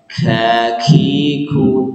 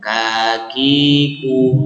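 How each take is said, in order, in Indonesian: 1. Bunyi k dilepas dengan hembusan napas. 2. Bunyi k dilepas biasa, tanpa hembusan napas. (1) "yang berharokat dikasih hamz beda. Misalkan kakiku, tidak perlu seperti itu" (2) "ketika berharokat biasa kakiku"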